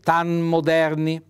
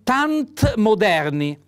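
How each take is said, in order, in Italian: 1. Non si sente nessun suono T prima della M. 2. Si sente un suono T prima della M. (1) "va eliminata la T e si dice tan moderni" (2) "c'è uno scontro fra una consonante, la T, e un'altra consonante"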